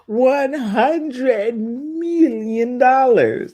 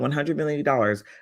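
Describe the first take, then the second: First: It is said in an Austin Powers impression. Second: It is said in the speaker's normal voice.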